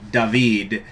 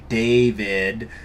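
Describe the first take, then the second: First: The name is said without a y-like glide. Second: The name is said with a y-like glide. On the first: "every other goddamn uh, language in the world says David" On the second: "as if there's a Y in it"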